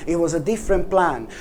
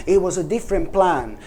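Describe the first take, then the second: No difference in how they are said.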